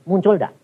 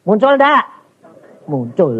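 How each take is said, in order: First: Said in the usual way. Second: Higher and louder, pressing for an answer; louder challenge. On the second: Real, not acted. Preacher pressing the congregation to answer, high and loud. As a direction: push the congregation to admit it.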